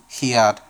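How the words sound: The word is said with an English pronunciation. "El de letra en inglés es así"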